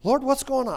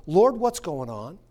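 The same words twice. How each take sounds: First: Pleading prayer. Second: Slow prayer. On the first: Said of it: "you say". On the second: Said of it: "At some point, you say". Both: Shown as a demonstration.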